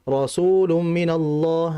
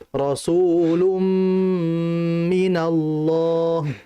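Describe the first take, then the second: First: The nasal sound is rushed and cut short. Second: The nasal sound is held long through the nose. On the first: The speaker calls it wrong. "Jangan kita baca Rasulum minallah. Nah, terlalu cepat" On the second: The speaker calls it right. "Ditahan terlebih dahulu, ya, sampai alirannya itu jelas, sudah keluar dari rongga hidung"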